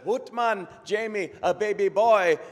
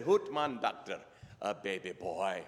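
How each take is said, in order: First: Excited Scottish doctor, high and loud; Scottish brogue. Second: Subdued Scottish father, dropping low; deflated Scottish reply; Scottish brogue. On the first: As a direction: announce it joyfully in a hammed-up Scottish brogue. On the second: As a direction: echo the news underwhelmed, in a put-on Scottish brogue. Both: Acted. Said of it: "best Scottish brogue I can come up with".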